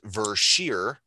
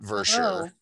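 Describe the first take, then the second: First: The final syllable sounds like 'sheer'. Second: The final syllable sounds like 'sher'. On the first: The speaker calls it right. "is actually pronounced Versheer" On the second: The speaker calls it wrong. "not Versher"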